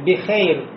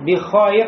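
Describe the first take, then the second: First: The vowel is a fronted 'ey' diphthong. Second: The vowel is an open 'ay' diphthong. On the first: This is how modern Arabs say it in conversation. "они говорят «бихейр»" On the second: This is the pure form without imala. "вместо того, чтобы сказать «Альхамдулилля бихайр»"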